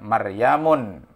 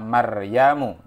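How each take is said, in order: First: The name ends in a u vowel plus n. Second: The name ends in a short u vowel. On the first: The speaker calls it wrong. "tidak boleh kita baca Maryamun misalkan, ditanwinkan" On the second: The speaker calls it right. "Maka Maryam ini termasuk isim ghairu munsharif"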